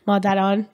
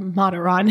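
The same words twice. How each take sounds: First: The name is said with a Persian pronunciation. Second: The name is said with an English pronunciation.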